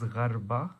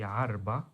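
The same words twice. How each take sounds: First: "gharba" opening on a throaty gh; usual modern pronunciation. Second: "arba" without the gh sound at the front; older pronunciation. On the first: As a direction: say "gharba" with a gh at the front. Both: Shown as a demonstration. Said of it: "older pronunciation, it would be".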